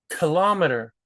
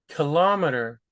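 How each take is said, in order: Both takes have the same delivery.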